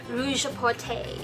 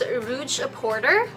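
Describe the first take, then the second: First: The name is said with fancy French sounds. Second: The name is said plainly, English style.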